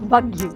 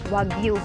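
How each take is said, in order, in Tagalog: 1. Nagsisimula ang salita sa tunog na V. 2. Nagsisimula ang salita sa tunog na W. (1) "yung letter W, ang pronunciation nila is V" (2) "kung sa English, ang basa niya is Wagyu"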